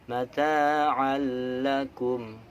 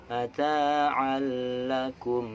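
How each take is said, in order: Both takes have the same delivery.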